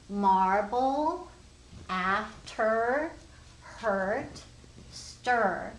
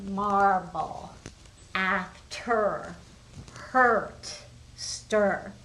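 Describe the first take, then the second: First: Marble, after, hurt, stir each with a rising questioning tune; rising word list. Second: Marble, after, hurt, stir each said firmly with a falling tune; falling word list. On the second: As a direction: read the list again, landing each word. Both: Shown as a demonstration. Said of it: "I would be circling the A R".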